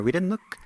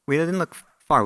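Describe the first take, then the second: First: Didn't lifted high and left hanging, half-finished; a teasing rhetorical setup; rising suspense. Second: Completing the rhetorical point with a firm fall; emphatic payoff. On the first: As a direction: hold "we didn't look" up in the air, unfinished. Rhetorical buildup before the reveal. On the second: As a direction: land hard on "far" with a falling finish. Rhetorical payoff of repeated phrase. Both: Real, not acted.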